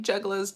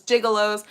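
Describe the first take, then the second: First: "Juggalos" said as JUG-a-lohs; "Juggalos" with juh sound; juggalos said right. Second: "gigolos" with a short i, JIG-a-lohs; "gigolos" as the wrong word; mispronounced as gigolos. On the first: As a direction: say "Juggalos" correctly with a short u. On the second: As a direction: say "gigolos" instead of juggalos. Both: Shown as a demonstration. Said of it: "I call them gigolos".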